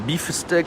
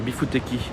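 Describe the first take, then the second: First: It is pronounced with English sounds. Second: It is pronounced with Japanese sounds.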